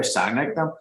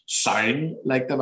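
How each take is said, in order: First: Said in the usual way. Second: Slow, exaggerated Northern Irish vowels; Northern Irish accent. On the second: Shown as a demonstration. Correcting himself to fit in with kids, Northern Irish accent. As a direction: stretch it out in broad Northern Irish. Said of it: "you better sound like them".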